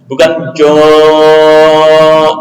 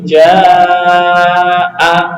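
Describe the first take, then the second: First: The long vowel is thick and dark. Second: The long vowel is thin and light. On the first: The speaker calls it wrong. "bukan jo'o, enggak" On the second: The speaker calls it right. "tapi ja'a"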